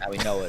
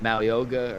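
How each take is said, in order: First: The name is said without a hard 'g' sound. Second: The name is said with a hard 'g' sound. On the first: The speaker calls it right. "that's the right pronunciation" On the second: The speaker calls it wrong. "I pronounce his name wrong every time"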